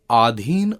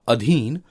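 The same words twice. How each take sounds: First: आधीन with long initial aa; wrong vowel length. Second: अधीन with short initial a; correct vowel length. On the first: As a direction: begin आधीन on a long 'aa'. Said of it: "अशुद्ध शब्द है". (आधीन में लंबा आ) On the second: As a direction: begin अधीन on a short 'a'. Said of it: "शुद्ध है". (अधीन में छोटा अ) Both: Shown as a demonstration.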